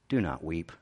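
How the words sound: It is said gently and compassionately.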